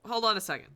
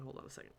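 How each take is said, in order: First: Louder, firm hold on; loud interruption. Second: Much softer, trailing off; almost inaudible repeat; faded to near silence. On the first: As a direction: cut yourself off out loud. Interrupts himself, repeating phrase. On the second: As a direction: let the words die away under your breath. Repeats phrase, fading out. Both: Real, not acted.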